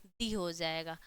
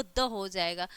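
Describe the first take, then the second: First: "दी" with a long ee vowel, low-pitched. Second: Short "द" with a schwa vowel. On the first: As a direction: say "दी" as the ee form of "the". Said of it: "उसका उच्चारण क्या हो जाएगा". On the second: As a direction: say "द" as the short weak form of "the". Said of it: "दी का जो होगा वो". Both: Shown as a demonstration.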